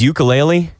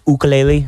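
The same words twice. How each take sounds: First: It uses the common anglicized pronunciation. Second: It uses a Hawaiian-style pronunciation. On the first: The speaker calls it wrong. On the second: The speaker calls it right.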